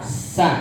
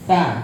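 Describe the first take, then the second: First: The first consonant is a hissing s sound. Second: The first consonant is a soft th sound. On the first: The speaker calls it wrong. "Jangan sa, nggak" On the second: The speaker calls it right. "Dia hanya ujung lidah ketemu sama ujung gigi seri atas"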